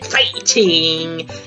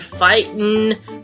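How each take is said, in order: First: The word ends with the final g sound. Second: The word ends without the final g sound.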